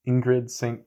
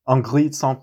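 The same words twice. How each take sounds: First: The name is said with an English accent. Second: The name is said with a French accent.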